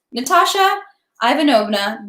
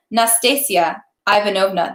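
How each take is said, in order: First: Natasha Ivanovna, misread name; wrong name. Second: Nastasia Ivanovna, said carefully; corrected name. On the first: Reader misreads the buffoon's name as Natasha. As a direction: slip saying Natasha for Nastasia. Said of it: "Oh, sorry, not Natasha". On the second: Reader corrects the buffoon's name to Nastasia. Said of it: "not Natasha". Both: Shown as a demonstration.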